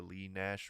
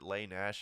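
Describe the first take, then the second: First: The first name has an 'ee' vowel. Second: The first name has an 'ay' vowel. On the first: "I heard someone say Lee Nash recently" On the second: "I pronounce it Lay Nash"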